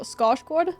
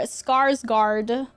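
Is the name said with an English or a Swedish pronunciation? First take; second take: Swedish; English. First: The name is said with a Swedish pronunciation. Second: The name is said with an English pronunciation. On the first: "That's the Swedish way of saying it" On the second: "if you're uh, an English presenter"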